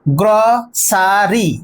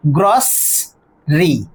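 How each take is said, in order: First: গ্রসারি drawn out slowly as gro-saa-ri; three-syllable mispronunciation. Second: গ্রসরি slowly split in two, gros, ri; two-syllable correct pronunciation. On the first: Teacher recalling the old three-syllable form, slow mispronunciation. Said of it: "তিনটে ছিল". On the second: Teacher showing the word after dropping E, corrected pronunciation. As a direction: hold gros, then a lower ri in গ্রসরি, no middle vowel. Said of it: "সেটা হচ্ছে correct pronunciation". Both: Shown as a demonstration.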